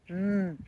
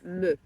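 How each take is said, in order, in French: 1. La consonne se prononce seule, sans voyelle. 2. Un son de 'e' bref suit le son de la consonne. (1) "vous dites M" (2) "et pas me"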